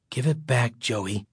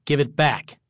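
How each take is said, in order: First: Low, resigned plea; weary sigh. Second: Understated angry demand; angry insistence. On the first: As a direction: say it softly on a sigh, sinking on the name. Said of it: "Greg said with a sigh". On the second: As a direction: insist firmly, with a touch of anger. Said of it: "Greg insisted angrily". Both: A narrator's reading.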